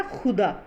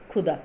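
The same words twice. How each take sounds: First: खुदा starting on a throaty fricative kh; pronounced with nukta. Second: खुदा starting on an aspirated k stop; pronounced without nukta. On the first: Teacher adds the dot, खुदा said with fricative kh. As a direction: scrape the first sound of खुदा, as in Persian. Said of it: "इसका उच्चारण हो जाता है". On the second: Teacher contrasts the digging word, खुदा with aspirated k. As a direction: pop the kh of खुदा, no throat friction. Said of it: "खुदाई वाला". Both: Shown as a demonstration.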